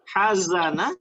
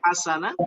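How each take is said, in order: First: The middle consonant is a buzzing 'z'. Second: The middle consonant is a hissing 's'. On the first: The meaning changes. The speaker calls it wrong. "kalau berubah sa menjadi za" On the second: It means goodness. The speaker calls it right. "bukan hasana"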